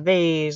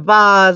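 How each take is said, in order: First: The word is said the plain, everyday way. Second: The word is said the posh, fancy way. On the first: The speaker is an ordinary person. "it's a vase if you're a lowly person like me" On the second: The vase is very expensive. "It's a vase if it's super expensive"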